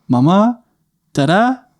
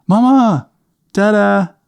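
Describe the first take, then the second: First: Put-on high little-boy voice, rising questioningly; Adam. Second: Put-on very high little-boy call, falling at the end; Adam. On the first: Little boy calling for his parents from downstairs, high questioning voice. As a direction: call out like a small child unsure who's there. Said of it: "our little guy, Adam, go". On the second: Little boy calling his parents a second time, high falling call. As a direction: call out insistently as a small child. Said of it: "He goes".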